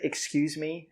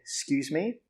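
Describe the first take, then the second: First: Every syllable is said fully and carefully. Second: It is said quickly with the first syllable reduced. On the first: The speaker calls it wrong. "We don't say excuse me again" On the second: The speaker calls it right. "we say excuse me"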